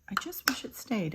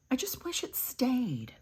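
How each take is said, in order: First: Said in the usual way. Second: Whispered wish. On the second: Real, not acted. Wistful aside about blush.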